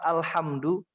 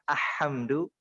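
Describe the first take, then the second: First: The L sound is clearly pronounced. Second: The L sound is dropped entirely. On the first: The speaker calls it right. "Jadi al lamnya harus terdengar jelas" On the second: The speaker calls it wrong. "bukan ahamdu"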